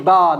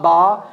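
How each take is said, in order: First: Ba with lips meeting, light and clean; correct ba. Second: Ba said the mistaken way, unlike the light one; mock the wrong ba. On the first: Teacher shows correct ba, lips meeting. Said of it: "be careful, I'm saying ba". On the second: Teacher demonstrates wrong ba to avoid. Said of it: "not ba". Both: Shown as a demonstration.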